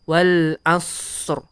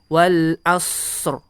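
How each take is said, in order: First: The s sound flows on and is drawn out. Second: The s sound flows on and is drawn out.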